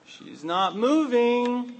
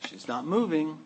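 First: High, slow, exasperated; Martha's disbelief growing; exasperated drawn-out repeat. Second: Said in the usual way. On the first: Acted. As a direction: stretch it out, fed up and disbelieving.

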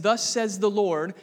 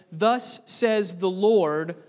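First: Said in the usual way. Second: "Thus says the Lord," drawn out slow and louder, rising on "Lord"; solemn prophetic call. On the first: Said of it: "When you read the phrase". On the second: Shown as a demonstration. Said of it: "that is the standard prophetic introduction".

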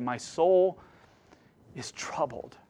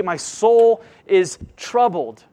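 First: Fading almost to nothing on troubled; Jesus's quiet anguish. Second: Loud, slow, each word weighed; slow emphatic lament. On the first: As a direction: let the words sink into a hush. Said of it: "when he cried out to God". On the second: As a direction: preach it out with a heavy pull on soul. Believer voicing psalm's lament. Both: Acted.

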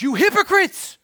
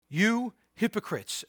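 First: Much higher, louder outraged cry; exclaimed rebuke. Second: Said in the usual way. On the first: Retold or imitated. Jesus rebuking the Pharisees, a loud high exclamation. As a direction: fling it out with an exclamation point. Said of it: "So even Jesus goes". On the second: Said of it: "exclamation point".

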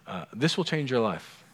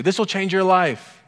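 First: Said in the usual way. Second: Mock grand pronouncement, higher and louder; jokingly imitating. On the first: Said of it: "I can say it this one time". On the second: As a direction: play up the other pastor's catchphrase. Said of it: "who would jokingly say".

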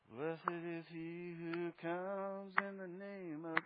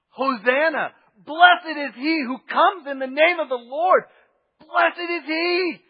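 First: Slow, limp, hushed churchy chant; sung, mock a bland Western worship song; limp church singing. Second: Loud, high ecstatic cry; joyful shouting. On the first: Sung, preacher mocking reserved Western worship, slow and limp. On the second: Retold or imitated. Crowd greeting the king, loud joyful shouting. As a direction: shout it at the top of your lungs. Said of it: "They're going".

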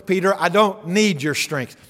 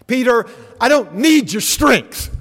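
First: Said in the usual way. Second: Raised, slow, firm declaration; higher and louder, leaning hard on need; Jesus rebuking Peter. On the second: Acted. Preacher voices Jesus to Peter.

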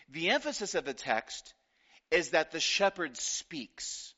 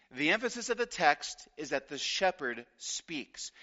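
First: "is" leaned on, slowed down; slow stress on is. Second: Said in the usual way. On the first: Shown as a demonstration. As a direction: land on the word "is" and draw it out.

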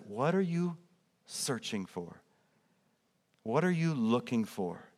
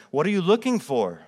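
First: Softer, tender invitation to seekers; gentle question. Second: Said in the usual way. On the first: Acted. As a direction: ask it quietly and kindly. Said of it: "Jesus says". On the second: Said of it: "he asked them".

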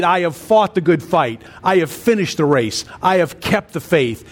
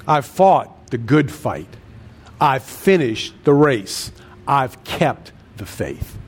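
First: Said in the usual way. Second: Slow, low, deliberate. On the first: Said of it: "He says in Second Timothy four". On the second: Shown as a demonstration. Preacher repeats Paul's words slowly.

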